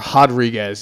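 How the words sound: The name is said with a Brazilian Portuguese pronunciation.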